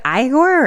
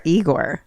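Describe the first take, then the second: First: "Igor" said as EYE-gor; EYE-gor pronunciation. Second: "Igor" said as EE-gor; EE-gor pronunciation. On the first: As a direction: start "Igor" with a long I, like "eye". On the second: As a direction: start "Igor" with an "ee" sound. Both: Shown as a demonstration. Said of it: "Is it Igor or Igor?".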